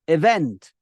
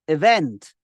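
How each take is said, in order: Both takes have the same delivery.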